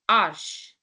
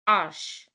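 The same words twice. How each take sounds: The two takes are said the same way.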